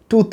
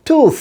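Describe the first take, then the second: First: টুথ ending in a Bengali থ stop; rejected pronunciation. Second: টুথ high, long oo, hissed th ending; correct final th. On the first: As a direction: close টুথ on a hard t, no hiss. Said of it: "টুথ না". (টুথ-এর শেষে বাংলা থ) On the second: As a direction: let air flow at the end of টুথ. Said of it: "তার সাথে সা sound". (টুথ-এ লম্বা উ, শেষে ইংরেজি th) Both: Shown as a demonstration.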